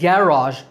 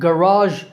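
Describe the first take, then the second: First: The stress is on the first syllable. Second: The stress is on the second syllable. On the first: "in British English, stress on first syllable" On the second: "in American English, stress on second syllable"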